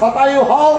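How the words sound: The first word begins with an s sound. "যখন আমরা বলি শতায়ু হও"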